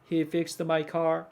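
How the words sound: It is said in a flat, robotic monotone. The speaker calls it wrong. "로봇처럼 이렇게 말을 하는 게 아니라"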